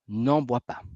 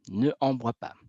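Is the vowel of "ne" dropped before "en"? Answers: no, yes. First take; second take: yes; no. First: The vowel of ne is dropped before en. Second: Both vowels are kept, ne then en. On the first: The speaker calls it right. "je devrais faire l'apostrophe" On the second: The speaker calls it wrong. "il y a ici deux voyelles"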